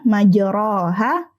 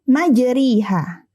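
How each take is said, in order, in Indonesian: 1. Vokal setelah r adalah a terbuka penuh. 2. Vokal setelah r adalah i penuh. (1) "tidak dibaca majroha" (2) "atau majriha"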